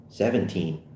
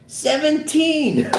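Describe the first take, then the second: First: Said in the usual way. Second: High, drawn-out exclamation; long high-pitched whoop; amazed hoot. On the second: Acted. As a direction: crow the number slowly in disbelief. Officer hoots at the age.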